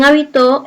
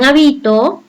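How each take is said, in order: First: Habitó with the stress on TÓ; past-tense habitó, said ha-bi-TÓ; stress on last syllable. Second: Habito with the stress on BI; present-tense habito, said ha-BI-to; stress on middle syllable. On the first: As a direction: land on the final syllable of habitó. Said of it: "tiene tilde en to". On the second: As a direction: lean on the second syllable of habito. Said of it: "bi suena más fuerte". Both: Shown as a demonstration.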